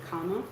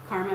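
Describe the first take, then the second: First: No R is sounded after the first vowel. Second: A hard R is sounded after the first vowel. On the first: The speaker calls it right. "Karma is actually comma" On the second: The speaker calls it wrong. "we have that hard R we like to pronounce"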